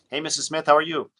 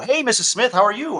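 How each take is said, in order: First: It sounds calm and natural, not salesy. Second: It sounds overexcited, like a sales call.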